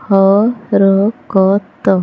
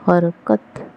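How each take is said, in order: First: हरकत split into slow syllables ह-र-क-त; spelled out slowly. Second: Said in the usual way. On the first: Shown as a demonstration. Teacher sounding out हरकत slowly in a reading lesson. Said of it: "syllable-by-syllable then whole". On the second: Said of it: "whole word after sounding out".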